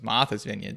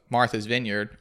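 First: It is said in a Massachusetts accent. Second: It is said in the speaker's usual accent.

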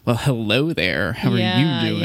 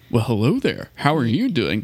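First: It sounds snotty, haughty and indignant. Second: It sounds crisp, polite and carefully enunciated. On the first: The speaker calls it right. "the right level of cuntiness in our voice if we're ever being indignant" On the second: The speaker calls it wrong. "they make us like super articulate and ... enunciate things right"

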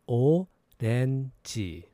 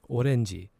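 First: The word is said slowly. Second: The word is said fast.

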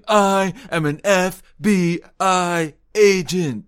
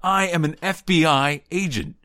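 First: F B I is said slowly, letter by letter. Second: F B I is said at normal pace.

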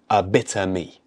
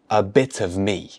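First: The word 'of' merges into one word, 'bitter'. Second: The word 'of' is still heard separately. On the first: "or even a bitter me" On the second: "let's connect the words to make our pronunciation more natural"

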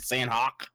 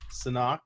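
First: The name is said in a redneck-style accent. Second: The name is said in a standard way. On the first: "I like to be redneck about it and say" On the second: "I guess is how you say it"

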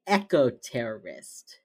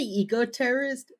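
First: The first syllable sounds like 'echo'. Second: The first syllable sounds like 'eek'. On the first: "They say eco-terrorist. / Echo" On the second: "they don't say eco-terrorist"

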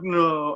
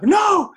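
First: It sounds sad. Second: It sounds scared.

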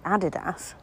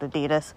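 First: It is said the older English way. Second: It is said the American way. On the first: This is how it used to be said. "used to be called Adidas" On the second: This is how it is said nowadays. "Never used to be called Adidas"

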